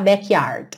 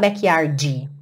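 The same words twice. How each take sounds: First: The final d is clipped with no vowel. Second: An extra vowel sound follows the final d. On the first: The speaker calls it right. "percebe que esse D vem só cortando mesmo a palavra" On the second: The speaker calls it wrong. "cuidado para não falar backyard"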